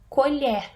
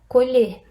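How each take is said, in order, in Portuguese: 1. A última sílaba tem vogal aberta. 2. A última sílaba tem vogal fechada. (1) "E na segunda é aberta" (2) "a última sílaba é fechada"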